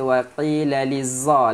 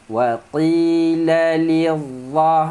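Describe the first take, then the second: First: The last word has a z sound. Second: The last word has a heavy dh sound. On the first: The speaker calls it wrong. "jangan baca wa qila lizza. La lizza itu zai" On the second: The speaker calls it right. "huruf dha tebal"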